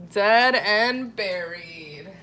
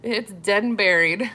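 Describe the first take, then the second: First: Slow, stretched-out DEAD AND BURIED; drawn-out repeat. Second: Said in the usual way. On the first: Pretend. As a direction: draw each word out for comic emphasis. Repeats the joke for emphasis.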